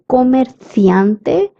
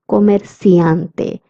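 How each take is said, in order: First: The c is said as in Spain. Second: The c is said as in Latin America. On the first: "A person from Spain would say comerciante" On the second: "a person from Latin America would say comerciante"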